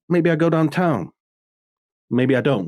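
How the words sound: The line is spoken with noticeable pauses. A skilled actor is speaking. The speaker calls it right. "it's in the pauses"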